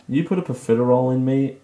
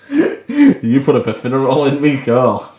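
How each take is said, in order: First: Said in the usual way. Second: Saying it through real laughter; laughing. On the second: Real, not acted. Redoing her blurted line while cracking up laughing. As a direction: giggle through the whole line.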